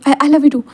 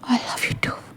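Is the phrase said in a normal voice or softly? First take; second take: normal; softly. First: It is said in a plain, ordinary voice. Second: It is said quietly and softly. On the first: It is said without feeling. "ये क्या था, कुछ प्यार से बोलो" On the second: It is meant to sound affectionate. "ऐसे वो धीरे से कहता है"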